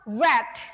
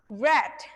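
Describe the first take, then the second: First: It has the vowel of the past-tense form. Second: The same.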